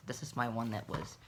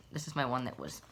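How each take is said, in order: Both takes have the same delivery.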